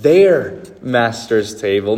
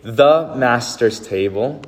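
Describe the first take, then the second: First: Slow phrase with "Their" strongly stressed. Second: Slow, THE held apart before master's table; slow reading with "The" singled out; stress on THE. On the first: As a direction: land hard on "Their", then ease through master's table. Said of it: "She says, "Their master's table". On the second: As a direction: set off "The" as the contrasted word. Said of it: "She doesn't say, "The master's table". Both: Shown as a demonstration.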